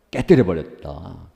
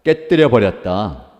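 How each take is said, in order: First: Said in the usual way. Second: 깨뜨려 said slow and loud, falling firmly; 깨뜨려 punched hard and slowly, louder, for the congregation to echo; emphatic call to repeat. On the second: Shown as a demonstration. Preacher leading the congregation to repeat 깨뜨려, slow and loud. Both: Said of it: "따라해봅시다".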